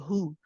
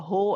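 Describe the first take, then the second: First: The vowel is a rounded 'oo' sound. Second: The vowel is an open 'oh' sound. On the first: The speaker calls it right. "not a hu ... make sure you round the lips" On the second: The speaker calls it wrong. "a very common mistake to say wahu, right? To pronounce it as a ho"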